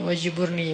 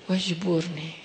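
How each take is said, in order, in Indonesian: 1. Diucapkan biasa saja, tanpa perasaan khusus. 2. Diucapkan pelan dengan perasaan yang mendalam dan tulus.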